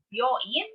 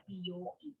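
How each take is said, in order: First: "byoin" with byo as one syllable; contracted. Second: "B O E" as bi-yo-in, bi on its own; separate syllables. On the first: Teacher warning learners about hospital, "byoin" contracted. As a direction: keep byo unsplit in "byoin". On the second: Teacher warning learners about salon, "B O E" uncontracted. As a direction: split "B O E" into bi, yo, in. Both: Shown as a demonstration. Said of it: "please be careful when saying".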